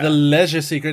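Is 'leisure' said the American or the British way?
British. Leisure is said with a British, fancy-sounding vowel. The film sounds fancy and classy. "I was at least hanging on to the idea that the"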